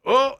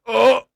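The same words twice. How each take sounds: First: Said in the usual way. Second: Sudden high pained oh; the pain catching you mid-move; high yelp of pain trying to get out. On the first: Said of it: "And I went". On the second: Retold or imitated. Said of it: "and I went".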